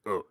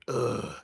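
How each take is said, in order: First: The sound is short and punchy. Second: The sound is stretched out long. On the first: The speaker calls it right. "really sh- short punch like ugh" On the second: The speaker calls it wrong. "long drawn out like ugh"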